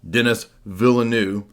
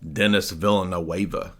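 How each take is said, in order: First: The surname ends in a consonant sound, like Villeneuve. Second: The surname ends in a vowel sound, like Villanueva. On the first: This is how people who know films say it. The speaker calls it right. "Okay, whatever. Villeneuve" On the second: This is how the written name suggests it is said. The speaker calls it wrong. "I've been saying for years Dennis Villanueva because that's how it's wrote out"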